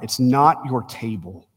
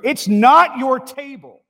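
First: The words are said in a fairly loud voice. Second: The words are said in a very loud voice. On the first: "he said a little bit louder" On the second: "he said as loud as he could, so the whole congregation could hear it"

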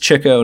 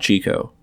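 First: The first syllable sounds like 'chick'. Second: The first syllable sounds like 'cheek'. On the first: The speaker calls it right. "it's Chico, He chased the chicks" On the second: The speaker calls it wrong. "not Chico"

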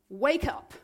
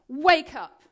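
First: It is said quietly. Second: It is said loudly.

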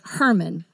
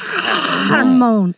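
First: The first sound is a plain light h. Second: The first sound is harsh and throaty. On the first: "if you go and Google it, it will say Herman" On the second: "it's real thick at the beginning"

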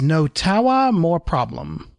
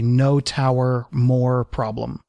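First: It is said in a put-on New York accent. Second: It is said in a plain, unaccented voice. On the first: The speaker calls it wrong. "fake horrible New York accent" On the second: The speaker calls it right. "if I drop the fake horrible New York accent"

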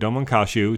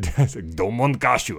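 First: The name is said in a flat English accent. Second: The name is said in a dramatic, show-like style. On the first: "pronounce them with a flat, the English speaking accent" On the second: "As opposed to Domon Kashu. I'm going to try to avoid the urge to do that"

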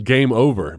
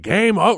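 First: It is said plainly, without drama. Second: It is said in a hammy, theatrical way.

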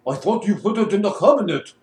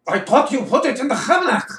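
First: It is said in a Russian accent. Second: It is said in a German accent.

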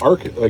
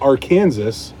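First: The ending is said like 'saw', silent s. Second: The ending is said like the word Kansas. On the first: "instead of Arkansas" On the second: "it's spelled the same way as Kansas. Why isn't it Arkansas"

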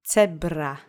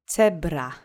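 No difference in how they are said.

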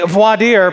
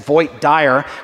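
First: It is said with a standard pronunciation. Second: It is said with a Texas pronunciation.

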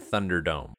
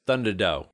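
First: The word ends with a clear m sound. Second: The word ends without any m sound.

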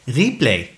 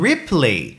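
First: The name is said with a French accent. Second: The name is said with an English accent. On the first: "you know how super French his accent is" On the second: "oh, you mean Ripley?"

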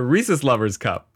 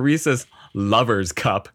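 First: The stress falls on the word Reese's. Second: The stress falls on the word Lover's. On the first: It is a treat for people who love Reese's. The speaker calls it right. "It's donuts for people who love Reese's" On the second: It is a cup for lovers. The speaker calls it wrong. "You're putting the emphasis on the wrong word at the wrong time here. It's not"

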